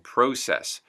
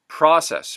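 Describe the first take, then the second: First: It is said in a Canadian accent. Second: It is said in an American accent. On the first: "Canadian English" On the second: "U S English"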